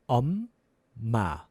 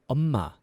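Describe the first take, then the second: First: It is said slowly. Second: It is said fast.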